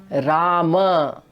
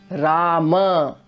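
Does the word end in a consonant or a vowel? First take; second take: vowel; vowel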